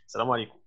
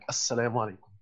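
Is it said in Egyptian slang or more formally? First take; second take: Egyptian slang; formal. First: It is said the Egyptian slang way. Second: It is said the more formal way.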